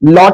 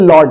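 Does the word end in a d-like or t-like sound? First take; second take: t-like; d-like. First: The word ends with a crisp t sound. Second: The word ends with a soft d sound. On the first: The speaker calls it wrong. "इसको टी नहीं बोलते" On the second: The speaker calls it right. "इसको डी sound pronounce करते हैं"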